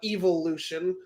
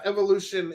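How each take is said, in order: First: The first syllable sounds like 'eve' in 'evil'. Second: The first syllable sounds like 'ev' in 'ever'.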